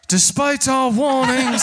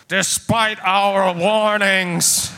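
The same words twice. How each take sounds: First: Booming voice, mouth held by dolphins; cheeks squeezed voice. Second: Booming voice. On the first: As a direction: boom through squeezed cheeks. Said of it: "summon two dolphins to hold his mouth". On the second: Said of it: "you hear a booming voice go". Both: Acted.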